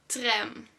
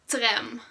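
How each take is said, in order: No difference in how they are said.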